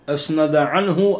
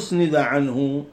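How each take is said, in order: First: The first word begins with an 'a' vowel. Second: The first word begins with a 'u' vowel. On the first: "بالفتح" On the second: "بالضم"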